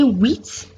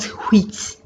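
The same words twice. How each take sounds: First: The word starts without an h sound. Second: The word starts with an audible h sound. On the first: The speaker calls it right. "the H that begins with is always silent or mute" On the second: The speaker calls it wrong. "and not"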